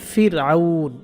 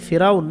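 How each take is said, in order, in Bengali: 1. শব্দের মাঝখানে গলায় একটু আটকানো আছে। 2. শব্দের মাঝখানটা মসৃণভাবে একসাথে চলে যায়। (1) "মূল কথাটা হচ্ছে ফির আউন" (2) "যেটাকে আমরা ফিরাউন বলি ফিরাউন না"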